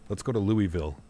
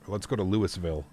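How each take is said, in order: First: Louisville as "Loo-ee-ville", silent s; Louisville with "ee" and full "ville"; teasing wrong Louisville. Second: Louisville as "Lewis-ville", s sounded; Louisville read as spelt, "Lewis-ville"; teasing wrong Louisville. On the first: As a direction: goad them with a three-syllable Louisville. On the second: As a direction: goad them by sounding the s in Louisville. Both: Shown as a demonstration. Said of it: "That's how you trigger chat".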